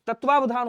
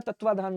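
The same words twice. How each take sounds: First: तत्वावधान with "va" before dhaan; correct form. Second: तत्वाधान with the second v dropped; wrong form. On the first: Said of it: "तत्वावधान होता है". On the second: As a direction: say तत्वाधान as "tatva-dhaan". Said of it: "तत्वाधान नहीं होता". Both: Shown as a demonstration.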